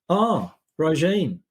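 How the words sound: It sounds flat and bored.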